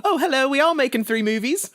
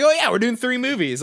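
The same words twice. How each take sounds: First: High, hammed-up British boy accent; bad British accent, laughing through it. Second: High, breezy mock Tom Holland blurting it out; young star casually spilling a secret; careless actor. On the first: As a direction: Tom Holland done in a silly British accent. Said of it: "That's my British". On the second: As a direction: toss the secret off lightly, higher up. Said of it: "Tom Holland slipped up and was like".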